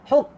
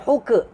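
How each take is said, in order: First: The k ends with a soft puff of air. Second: The k ends with a bouncing vowel-like release. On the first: The speaker calls it right. "Angin, angin" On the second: The speaker calls it wrong. "Huka itu bukan angin. Itu lantun"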